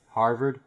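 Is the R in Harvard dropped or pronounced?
pronounced. The R sounds are fully pronounced.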